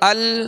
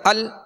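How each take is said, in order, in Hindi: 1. आख़िरी L बिना झटके के, स्थिर रखा जाता है। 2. आख़िरी L झटके के साथ छोड़ा जाता है। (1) "बल्कि" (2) "झटके से अदा नहीं करना"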